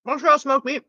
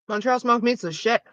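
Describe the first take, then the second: First: Talking through a mouthful; words round a bite of sandwich; mouth full. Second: Said in the usual way. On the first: Real, not acted. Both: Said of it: "I talked to my mouth full".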